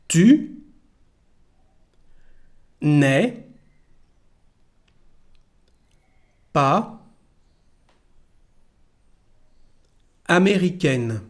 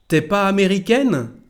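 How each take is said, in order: First: The 'ne' sound is heard after 'tu'. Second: The 'ne' is dropped and 'tu' is shortened. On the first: This is the careful, written form. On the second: This is how people speak casually now.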